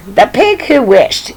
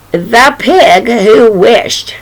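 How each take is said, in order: First: Said in the usual way. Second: Drawn out, slow and grand; slow title announcement. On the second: Shown as a demonstration. Storyteller slowly announcing the title to children. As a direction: announce the title slowly, savoring each word.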